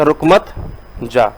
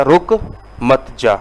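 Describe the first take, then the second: First: रुक मत run together, then a pause before जा; pause after मत. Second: रुक, then a clear pause before मत जा; pause after रुक. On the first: Teacher showing students the comma after मत, pause after मत. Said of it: "कॉमा जो है वो अगर मत के बाद लगा दे". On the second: Teacher showing students the comma after रुक, pause after रुक. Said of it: "अगर कॉमा जो है वो रुक के बाद लग जाए". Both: Shown as a demonstration.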